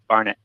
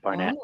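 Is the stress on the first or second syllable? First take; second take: first; second. First: The stress is on the first syllable. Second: The stress is on the second syllable. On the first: The speaker calls it right. "in the U K, it's Barnett" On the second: The speaker calls it wrong. "not Barnett"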